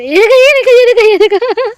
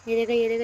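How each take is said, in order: First: High, loud, thrilled squealing; excited squeal. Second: Said in the usual way. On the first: Real, not acted. Girl shows viewers her cat, squealing with delight.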